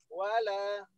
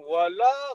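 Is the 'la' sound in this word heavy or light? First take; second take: light; heavy. First: The 'la' sound is light and thin. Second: The 'la' sound is heavy and full. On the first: The speaker calls it right. "lanya ringan saja" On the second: The speaker calls it wrong. "jangan wala kayak berat"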